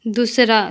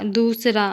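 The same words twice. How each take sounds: First: Short u in "दूसरा", like "दुसरा"; incorrect pronunciation. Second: Long oo in "दूसरा"; correct pronunciation. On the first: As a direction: say "दूसरा" wrongly with a brief first vowel. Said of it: "अशुद्ध शब्द". ("दूसरा" का अशुद्ध उच्चारण, छोटा उ) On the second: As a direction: say "दूसरा" with the first vowel held long. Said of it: "शुद्ध शब्द". ("दूसरा" का शुद्ध उच्चारण, लंबा ऊ) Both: Shown as a demonstration.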